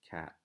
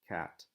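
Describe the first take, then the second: First: The final T is held without any release. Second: The final T is fully released with a burst. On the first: The speaker calls it right. "it remains up on the roof of my mouth, but it doesn't come back down" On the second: The speaker calls it wrong. "That sounds a bit overpronounced"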